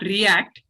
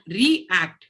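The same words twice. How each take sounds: First: The stress is on the second syllable. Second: The stress is on the first syllable. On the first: Responding to something that happened. The speaker calls it wrong. "It's not react" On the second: Acting again in a different way. The speaker calls it right. "which means change the way you are acting"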